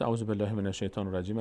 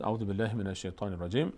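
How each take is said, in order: First: Said in the usual way. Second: Measured Arabic recitation formula; formal recited Arabic; Quran recitation. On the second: Shown as a demonstration. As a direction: recite it as an opening to Quran reading. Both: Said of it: "از آداب تلاوت است".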